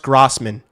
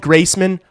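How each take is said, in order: First: The first syllable sounds like 'gross'. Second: The first syllable sounds like 'grace'. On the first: "It's pronounced Grossman" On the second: "If you call me Graceman, I don't care"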